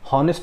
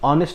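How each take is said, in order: First: The word starts with a clear h sound. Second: The word starts with a vowel, no h. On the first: The speaker calls it wrong. "ये हॉनेस्ट नहीं होगा" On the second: The speaker calls it right. "ये ऑनेस्ट man होगा"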